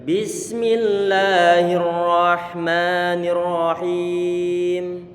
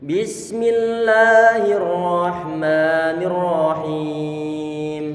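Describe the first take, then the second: Both takes have the same delivery.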